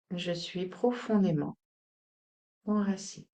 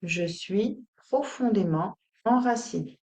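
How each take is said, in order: First: Softer repeat with a pause before the last word; subdued, grounded mantra; quiet affirmation. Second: Deliberate mantra, broken into short phrases; measured, grounded affirmation; spoken affirmation. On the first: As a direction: let it sink in gently. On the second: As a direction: state it steadily, word group by word group. Affirmation given out to repeat. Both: Shown as a demonstration.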